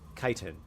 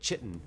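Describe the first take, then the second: First: The word does not begin like chicken. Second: The word begins with a 'ch' like chicken. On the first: "apparently it's pronounced chitin" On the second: "chitin sounds like um I don't know, like chicken"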